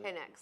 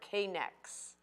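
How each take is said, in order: First: The initial K is silent, like connects. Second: The initial K is pronounced as a letter. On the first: The speaker calls it right. "if I said it correctly" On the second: The speaker calls it wrong. "I said K"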